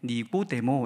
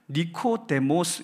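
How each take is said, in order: First: It has a g sound and ends in a vowel. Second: It has a k sound and ends in s. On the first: This is the adapted local form of the name. "우리나라 말로 이렇게 번역을 해가지고 발음하기 예쁘게 니고데모 이렇게 읽도록 해놓은 거지만" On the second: This is the original form of the name. "원래 이 헬라어 이름이기 때문에 그 이름을 보면 니코데모스 이렇게 읽어야 되는 단어입니다"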